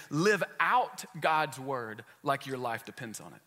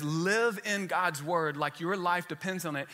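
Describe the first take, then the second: First: Slow, with "out" clearly punched; "Live out God's word", hit "out" hard; stress on out. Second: Slow, the word "in" set apart from the later "out"; "Live in God's word", lean on "in"; stress on in. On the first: Pastor contrasting in and out for the congregation, stressing out. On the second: Pastor reading the verse to the church, slow with light stress. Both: Shown as a demonstration. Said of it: "And then he goes on to say".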